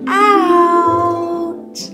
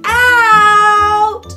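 First: It is said quietly. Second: It is said loudly.

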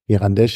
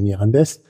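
First: The word ends with a sh sound. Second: The word ends with an s sound. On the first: This is the Portuguese pronunciation. "Mirandesch auf Portugiesisch" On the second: This is how the local people say it. "aber die Leute selber sagen Mirandés"

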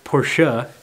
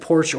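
First: The name is said with two syllables. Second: The name is said with one syllable. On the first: This is the pronunciation purists insist on. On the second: This is the everyday pronunciation.

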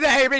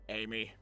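First: The name is said loudly, with showy energy. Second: The name is said plainly, with little energy. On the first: The speaker calls it right. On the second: The speaker calls it wrong.

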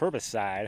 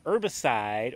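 First: The first h sound is pronounced. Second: The first h sound is silent. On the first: "however you want to say it" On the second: "An herbicide, or herbicide, however you want to say it"

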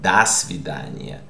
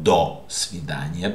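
First: The first word has a reduced 'a'-like vowel. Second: The first word has a full 'o' vowel. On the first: The speaker calls it right. "That's why you have the rule of the unstressed O" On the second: The speaker calls it wrong. "not до свидания"

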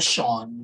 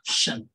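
First: The ending vowel is strongly rounded, like shon. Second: The ending vowel is short and unrounded, like shun. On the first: The speaker calls it wrong. "Instead of saying it with a shon, sobrang bilog na ganun" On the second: The speaker calls it right. "Gawin nyo lang na shun"

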